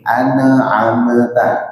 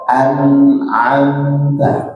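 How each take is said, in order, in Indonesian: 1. Bunyi n dilepas dengan vokal kecil yang memantul. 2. Bunyi n ditahan sebentar tanpa pantulan. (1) "kesalahan yang sering kita dengar adalah memantulkan ya pada nun dan mim" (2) "Dia ada sedikit ketahan dikit aja"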